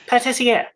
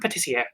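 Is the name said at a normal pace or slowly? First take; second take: slowly; normal. First: The name is said slowly and carefully. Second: The name is said at a normal pace.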